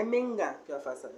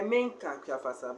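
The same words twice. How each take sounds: First: The nice minga kiafasa; polite pronunciation. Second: Minka kiafasa with a hard k in minka, the rude form; the not-nice minka kiafasa; impolite pronunciation. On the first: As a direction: say minga kiafasa with the ng sound, the proper way. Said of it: "So you have to say". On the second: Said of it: "it's not nice". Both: Shown as a demonstration.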